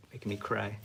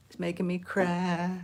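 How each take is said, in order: First: Said in the usual way. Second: Much higher hammed-up whine; playful fake sob voice; mock cry. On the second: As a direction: whine it like a mock-crying child. Mock whine over the drawing.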